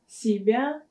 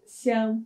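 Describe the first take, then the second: First: The word is said in full, two syllables. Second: The word is cut to one syllable. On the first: "слово «себя» в быстрой речи часто заменяется на" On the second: "заменяется на «ся»"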